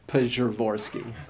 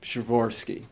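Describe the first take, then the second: First: It starts with a full, clearly spoken P. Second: It starts with a faint, barely heard P. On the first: The speaker calls it wrong. "but it's not Pshavorsky" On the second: The speaker calls it right. "You sort of have the shadow of a P at the beginning of it"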